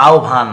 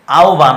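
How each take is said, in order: First: আহ্বান said as "aobhan", the h turned to o and the b to bh; correct pronunciation. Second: Said in the usual way. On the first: Shown as a demonstration. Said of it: "actually উচ্চারণ হবে আহ্বান". (আহ্বান-এর শুদ্ধ উচ্চারণ আওভান) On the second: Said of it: "আহ্বান আমরা বলবো".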